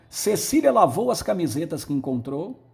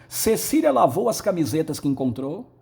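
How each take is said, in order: The two takes are said the same way.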